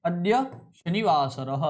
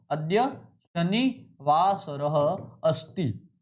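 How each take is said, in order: First: Said in the usual way. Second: अद्य शनिवासरः अस्ति spoken very slowly, each syllable drawn out; slow dictation. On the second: Shown as a demonstration. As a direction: dictate it slowly for students to write. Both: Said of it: "ध्यान रखना".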